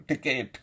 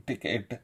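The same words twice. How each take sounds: The two takes are said the same way.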